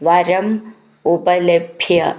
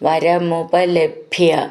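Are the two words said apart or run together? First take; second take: apart; together. First: The two words are said separately. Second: The two words are run together as one.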